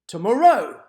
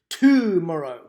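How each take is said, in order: First: The stress is on the third syllable. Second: The stress is on the first syllable. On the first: "the first and the third exaggeration just were really off" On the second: "the first and the third exaggeration just were really off"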